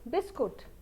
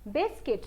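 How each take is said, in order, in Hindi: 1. दूसरा अक्षर 'kut' जैसा बोला जाता है। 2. दूसरा अक्षर 'kit' जैसा बोला जाता है। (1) "हम इसको हिंदी में बोल देते हैं बिस्कुट" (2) "ये बन जाता है बिस्किट"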